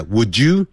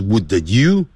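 First: "would you" said as "wou-joo"; "would you" with a j in the middle; correct linked pronunciation. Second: "would you" split as "wou-duh you"; "would you" with a separate d; wrong unlinked pronunciation. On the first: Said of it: "我们念一下". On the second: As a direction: add a little vowel after the d in "would you". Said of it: "而不是". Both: Shown as a demonstration.

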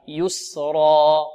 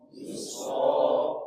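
First: "يسرا" slow, held, heavy ra; slow model. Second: "يسرا" whispered slow with open throat. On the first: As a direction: chant "يسرا" slowly. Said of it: "انطقوا معي". (نطق "يسرا" ببطء مع الطلاب) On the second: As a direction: breathe "يسرا" soft and slow. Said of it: "الحلق يبقى مفتوح". ("يسرا" همساً ببطء) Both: Shown as a demonstration.

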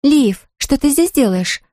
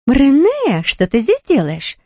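First: Higher, gasped out in surprise; a startled gasp of a question. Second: High, delighted squeal of the name. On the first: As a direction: caught off guard, gasping at Liv. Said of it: "ахнула Люси". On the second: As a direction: squeal with surprise. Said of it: "взвизгнула Лив". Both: A narrator's reading.

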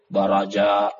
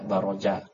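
First: Said in the usual way. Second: "Baroja" said with a rounded o after the r, not an a; original Arabic pronunciation. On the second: Shown as a demonstration. Teacher correcting students: "Baroja" with an o sound. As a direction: say "Baroja" with an o in the middle. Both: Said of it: "Baroja aslinya bukan Baraja".

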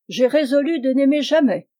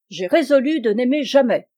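First: A resolute refusal, jamais held firm. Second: Résolu stressed, defiant and firm; defiant refusal. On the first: Dit-elle. (refus ferme, jamais bien appuyé) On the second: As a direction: stress résolu as a final answer. Dit Brillante. (refus défiant, accent sur résolu) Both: Acted.

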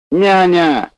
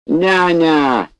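First: High, loud drawn-out yell; calling for the nurse. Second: High, loud drawn-out call; bellowing for the nurse. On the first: Bored patient yells again for the nurse, loud call. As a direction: shout for the nurse once more. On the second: Bored patient yells for the nurse, bellowing call. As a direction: holler down the corridor for the nurse. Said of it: "заорал детина". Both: Acted.

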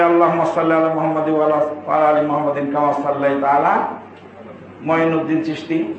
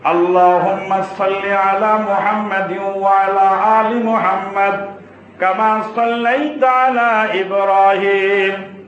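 First: Quick, lower spoken rattle ending in a question; rapid mock recitation. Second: Slow, melodic prayer chant; chanted, intone it with long drawn-out syllables; chanted recitation. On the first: Preacher asks if followers swap in the saint's name, rattled off questioningly. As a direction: run through it quickly as a rhetorical question. Rhetorical misquote of the durood. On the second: Shown as a demonstration. Preacher recites the durood for the congregation, slowly chanted.

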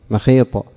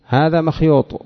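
First: مخيط said short as mekhit with a long i, the Hijazi way; مخيط in the short Hijazi form. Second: مخيوط said with a full ya and a long u, the Tamim way; مخيوط kept in the full Tamim form. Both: Shown as a demonstration. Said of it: "على لغة الحجاز ماذا يقول".

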